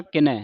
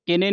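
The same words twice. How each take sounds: First: ਕਿਨੈ ending in open 'ai'; correct reading. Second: ਕਿਨੇ ending in closed 'ay'; wrong reading. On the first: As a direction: say ਕਿਨੈ as ki-nai, open vowel. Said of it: "ਕਿਨੈ ਦਲਾਵਾਂ ਦੇ ਨਾਲ". (ਕਿਨੈ, ਦਲਾਵਾਂ ਨਾਲ ਉਚਾਰਨ) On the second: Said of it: "ਕਿਨੇ ਨਹੀਂ ਪੜ੍ਹਨਾ". (ਕਿਨੇ, ਲਾਂ ਵਾਲਾ ਉਚਾਰਨ) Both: Shown as a demonstration.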